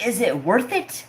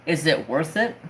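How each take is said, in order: First: High, indignant echo with a sharp rise; incredulous echo. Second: Dad's doubting question, voiced close to usual pitch. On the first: Retold or imitated. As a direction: fling the question back in disbelief. Throws dad's question back, outraged. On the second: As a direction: ask it evenly as the dad, rising at the end. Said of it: "what does my dad say to me".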